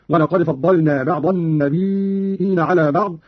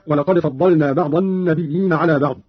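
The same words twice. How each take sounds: First: "النبيين" said "an-nabii'iin" with a long vowel before the hamza. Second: Said in the usual way. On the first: Shown as a demonstration. Teacher demonstrates Qalun's reading, hamza inside a drawn-out "النبيين". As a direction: draw out "النبيين" and add a hamza, slowly. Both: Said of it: "قرأ قالون بهمز الياء".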